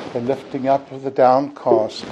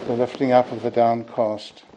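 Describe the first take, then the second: No difference in how they are said.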